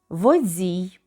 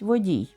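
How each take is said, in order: First: The consonant before the i is dz. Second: The consonant before the i is plain d. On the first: The speaker calls it wrong. "«дз» замість «д»" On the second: The speaker calls it right. "замість «водій»"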